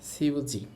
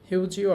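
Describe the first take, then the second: First: The word starts with an s sound. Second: The word starts with an h sound. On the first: "দ্রুত বলে, তখন সাউন্ডটা অনেক সময় এরকম শোনা যায়" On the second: "হিউজি অর্থ হচ্ছে টিস্যু"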